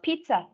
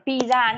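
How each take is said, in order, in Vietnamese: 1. Từ này được đọc theo kiểu tiếng Anh. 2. Từ này được đọc theo kiểu tiếng Việt. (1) "mình bảo là pizza" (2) "Mình không bảo là pizza nữa"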